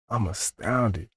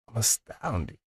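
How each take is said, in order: First: It sounds distasteful, like disgusted astonishment. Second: It sounds pleasantly amazed, not distasteful.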